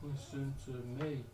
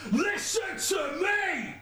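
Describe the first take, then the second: First: Quiet read-through. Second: High, drawn-out chorus shout; shouted hook. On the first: Rapper showing where the break falls, quietly. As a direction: mark the hook softly, unperformed. Reading the hook off paper. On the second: Rapper trying the chorus again, shouted long. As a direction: stretch the hook out in a high yell. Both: Shown as a demonstration.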